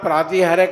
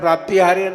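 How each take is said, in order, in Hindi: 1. बीच का व्यंजन सादा 't' ध्वनि है। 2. बीच का व्यंजन 'pt' संयुक्त व्यंजन है। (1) "प्रातिहार्य का उच्चारण" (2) "प्राप्तिहार्य न करें"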